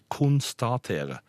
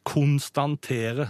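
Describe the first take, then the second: First: It has no n sound before the t. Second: It has an extra n sound before the t. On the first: The speaker calls it right. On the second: The speaker calls it wrong. "Ikke si"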